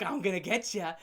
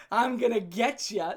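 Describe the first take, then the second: First: Said in the usual way. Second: Slow, laughing singsong tease; laughing taunt. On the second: Retold or imitated. Teasing his girlfriend in the chase, laughing. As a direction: drag it out through a laugh.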